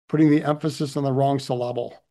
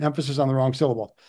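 First: "syllable" stressed on the middle, syl-LAH-ble; comically mis-stressed "syllable" as suh-LAH-bul; wrong-syllable stress. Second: Said in the usual way. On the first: Shown as a demonstration. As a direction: misplace the stress in "syllable" onto LAB.

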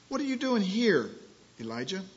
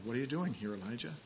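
First: Strong voice of God demanding an answer; booming question. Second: Soft, hushed and gentle, fading to near silence; gentle quiet voice of God; still small voice. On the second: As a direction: ask it barely above a breath. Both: Acted. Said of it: "Still small voice".

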